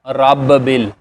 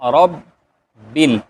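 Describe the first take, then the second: First: The b is released with a bouncing echo. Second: The b is held closed without release. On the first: The speaker calls it wrong. "ऐसे नहीं पढ़ेंगे" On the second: The speaker calls it right. "यहाँ पर आवाज़ को आपने रोक लेना है"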